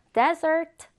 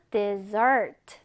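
First: Desert with a strong, higher "DES" up front; stress on first syllable. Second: Dessert with a light "de" and strong "ssert"; stress on second syllable. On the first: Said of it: "앞 음절에 있습니다". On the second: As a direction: punch the back syllable of "dessert". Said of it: "뒤에 강세가 들어가요". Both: Shown as a demonstration.

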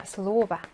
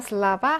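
First: 슬로바 with stress on 로, a full O; 슬로바, stressed O held clearly; stress on first syllable. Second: 슬라바 with stress on the final 바; 슬라바, end-stressed with A in 라; stress moved to ending. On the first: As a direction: lean on the 로 in 슬로바. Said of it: "오의 강세가 있어요". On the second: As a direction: land on the last syllable of 슬라바. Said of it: "강세가 슬라바 하고 뒤로 이동을 해서". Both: Shown as a demonstration.

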